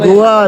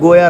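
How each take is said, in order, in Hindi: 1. यह नाम v ध्वनि के साथ बोला जाता है। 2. यह नाम y ध्वनि के साथ बोला जाता है। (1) "रॉन्ग" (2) "राइट"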